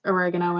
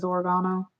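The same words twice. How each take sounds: First: Oregano as uh-REG-uh-no; short e in the stressed REG of oregano; own pronunciation. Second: Oregano as or-uh-GAH-no; an "ah" in the stressed GAH of oregano; everybody else's pronunciation. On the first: Shown as a demonstration. Insisting to viewers on her version, oregano as uh-REG-uh-no. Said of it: "it is oregano". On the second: Retold or imitated. Quoting how everybody else says it, oregano as or-uh-GAH-no. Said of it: "'Cause everybody else says oregano".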